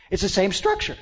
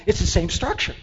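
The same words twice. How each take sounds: The two takes are said the same way.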